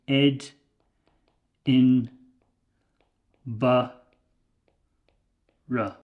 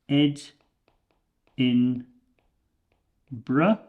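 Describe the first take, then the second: First: The word is said with four syllables. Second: The word is said with three syllables. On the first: "or you can say Ed in Ba Ra" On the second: "You can say Ed in Bra"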